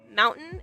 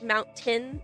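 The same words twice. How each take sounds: First: The middle t is dropped. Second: The middle t is clearly pronounced. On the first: "I don't pronounce t's all that often in the middle of words" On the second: "instead of saying like mountain"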